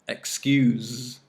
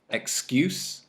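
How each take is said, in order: First: The word ends with a buzzing z sound. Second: The word ends with a hissing s sound. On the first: It is the verb. "Z with the verb" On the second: It is the noun. "S with the noun or adjective"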